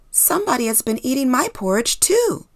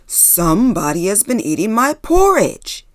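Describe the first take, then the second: First: It is said in a normal voice. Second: It is growled in a loud voice.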